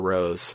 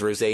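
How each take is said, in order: First: The name has one syllable, like the flower. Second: The name has two syllables, ending in 'ay'. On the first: This is the simpler everyday form of the name. "I'm going to call her Rose" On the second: This is the original Japanese form of the name. "It is Rosé in Japanese. In the beta, it had an uh, accent mark"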